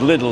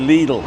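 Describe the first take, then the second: First: The first vowel is short, like "lid". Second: The first vowel is long, like "lee". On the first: The speaker calls it wrong. "if it was Lidl, there'd be a double D" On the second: The speaker calls it right. "you've got to say Lidl"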